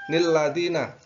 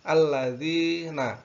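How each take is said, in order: First: The word begins with an added 'n' sound. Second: The word begins with a plain 'a' sound. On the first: The speaker calls it wrong. "biasanya bagi pemula nilladina. Kalau membaca nilladina itu salah" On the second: The speaker calls it right. "yang betul adalah alladzina"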